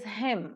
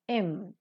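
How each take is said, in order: First: The word begins with an h sound. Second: The word begins without an h sound. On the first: "him with her sound" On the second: "weak form im without the her sound"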